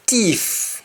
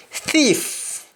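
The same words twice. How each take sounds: First: Thief starting with T, as "teef"; Jamaican pronunciation. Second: Said in the usual way. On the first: Shown as a demonstration. Teacher showing Jamaican speech, thief said as "teef". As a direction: drop the th in thief for a hard T. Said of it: "is missing". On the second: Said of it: "the accent is missing".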